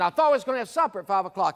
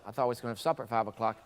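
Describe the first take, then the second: First: It is screamed very loudly. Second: It is said very quietly. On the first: It would not be accepted. The speaker calls it wrong. "I could scream" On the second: It might be accepted. The speaker calls it right. "very low"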